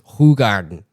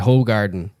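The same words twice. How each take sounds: First: The name is pronounced the Belgian way. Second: The name is pronounced the American way. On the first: The speaker calls it right. "but it's Hoegaarden" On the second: The speaker calls it wrong. "all these Americans say Hoegaarden"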